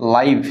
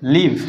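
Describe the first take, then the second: First: The vowel is an eye sound. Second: The vowel is a long ee sound. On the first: It means broadcast in real time. "সরাসরি প্রচারের ক্ষেত্রে উচ্চারণটা হবে লাইভ লয়াকার হস্যই ভ" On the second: It means to reside somewhere. "বাস করার ক্ষেত্রে উচ্চারণটা হবে লিভ লয় দীর্ঘি ভ"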